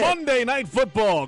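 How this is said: It is said in a put-on announcer voice. "Do your voice"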